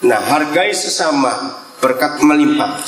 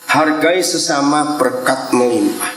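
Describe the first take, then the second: First: Hargai leaned on, melimpah falling low; stress on hargai and melimpah. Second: Hargai drawn out slowly, melimpah sinking low; a slow, deliberate hargai sesama, berkat melimpah; slow stress on hargai. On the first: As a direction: press hargai, drop melimpah. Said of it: "Satu lagi". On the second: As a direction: read it slowly, hargai first. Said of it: "Coba tayangkan kalimat ketiga". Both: Shown as a demonstration.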